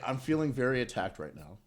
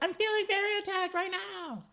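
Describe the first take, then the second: First: It is read out in a plain voice. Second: It is said imitating the drag queen's delivery.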